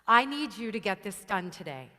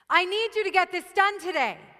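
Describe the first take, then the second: First: It is said at a normal, neutral intensity. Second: It is said with high, forceful intensity.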